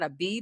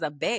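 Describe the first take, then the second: First: The letter is named the English way. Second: The letter is named the Spanish way. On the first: This is the letter name the speaker is rejecting. The speaker calls it wrong. "This is not a B" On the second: This is the letter name the speaker accepts. The speaker calls it right. "This is a B"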